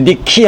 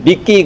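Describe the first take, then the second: First: It is said in the plain, non-Mediterranean way. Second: It is said the way Spanish speakers say it. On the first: The speaker calls it wrong. "니키 하지 않고" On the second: The speaker calls it right. "그 사람들은 니키 그럽니다. 스페인 사람들처럼"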